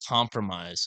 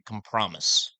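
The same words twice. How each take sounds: First: The ending is said in the usual way. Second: The ending is said like the word promise.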